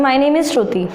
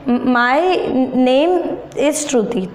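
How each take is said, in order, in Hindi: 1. यह सहजता और आत्मविश्वास से बोला गया है, बिना झिझक के। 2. यह रुक-रुककर, झिझक और अनिश्चितता के साथ बोला गया है। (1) "मैंने कितने कॉन्फिडेंटली बोला" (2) "कुछ लोग हेजिटेशन की वजह से इसको कैसे प्रोनाउंस करेंगे"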